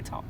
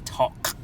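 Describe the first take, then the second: First: The final K is very soft. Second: The final K is clearly pronounced. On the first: "the K is very, very soft" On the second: "We don't say talk"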